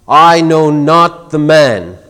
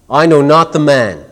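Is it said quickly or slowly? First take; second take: slowly; quickly. First: It is said slowly and emphatically. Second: It is said quickly, in about a second.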